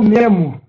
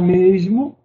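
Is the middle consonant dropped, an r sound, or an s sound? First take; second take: dropped; s sound. First: The s sound is dropped entirely. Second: The s sound is pronounced clearly. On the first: The speaker calls it wrong. "Ou então memo" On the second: The speaker calls it right. "use o correto"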